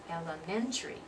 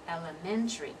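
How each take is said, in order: First: One syllable is dropped, giving four. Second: The same.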